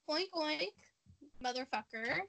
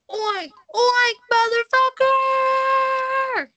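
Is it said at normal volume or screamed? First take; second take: normal; screamed. First: It is said at a normal volume. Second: It is screamed loudly.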